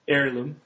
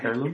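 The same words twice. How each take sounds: First: The word begins without any H sound. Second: The word begins with an audible H sound. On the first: The speaker calls it right. "It's Heirloom" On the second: The speaker calls it wrong. "You don't pronounce the H"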